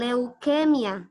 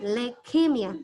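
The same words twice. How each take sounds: First: The first syllable has an audible 'oo' vowel. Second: The first syllable has no 'oo' vowel. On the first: The speaker calls it wrong. "bukan leukemia" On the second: The speaker calls it right. "tidak bunyi u-nya"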